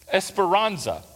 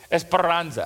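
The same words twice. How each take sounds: First: Esperanza said with a Southern American accent. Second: "Esperanza" with a trilled, rolled R in the middle; "Esperanza" said the Spanish way, R rolled. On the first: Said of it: "that sounded like a Southern boy". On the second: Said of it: "Rolled my R". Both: Shown as a demonstration.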